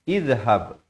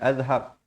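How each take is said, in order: First: The word begins with an i vowel. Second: The word begins with an a vowel. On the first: The speaker calls it right. "Yang betulnya ialah izhab" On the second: The speaker calls it wrong. "Apatah lagi azhab"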